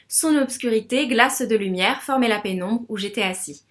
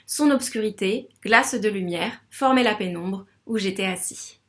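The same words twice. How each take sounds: First: The sentence is read at an ordinary pace. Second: The sentence is read slowly, in clear measures.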